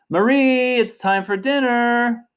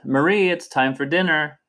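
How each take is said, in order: First: It is called out, somewhat raised. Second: It is said in a plain speaking voice.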